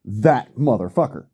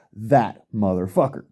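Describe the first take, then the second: First: Said in the usual way. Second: Single out "that" with weight, then let "motherfucker" fall; emphasis on that. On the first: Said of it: "Again, let me emphasize". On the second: Real, not acted. Ranting to viewers, pointing out one man, stressing "that". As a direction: stress the word "that" in "that motherfucker", leaning on it. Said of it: "let me emphasize".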